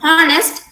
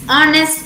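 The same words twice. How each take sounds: First: The word starts with an h sound. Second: The word starts without an h sound. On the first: The speaker calls it wrong. "instead of" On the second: The speaker calls it right. "The H sound here is silent"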